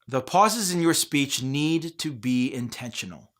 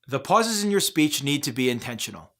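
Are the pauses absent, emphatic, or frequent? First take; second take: emphatic; absent. First: It slows down at a few chosen places. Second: The sentence runs through with no pauses. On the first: "try slowing down in certain places" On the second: "saying the same sentence without any pauses"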